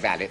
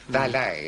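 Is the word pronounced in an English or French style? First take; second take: English; French. First: It is pronounced in an English style. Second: It is pronounced in a French style. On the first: "You should say valet" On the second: "but everyone does do this"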